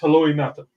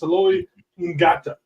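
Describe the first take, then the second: First: The surname starts with a plain N sound. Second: The surname starts with a G-like sound. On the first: The speaker calls it right. "but it's just Heloi Nata" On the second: The speaker calls it wrong. "There's a G in his name, so you if you read it"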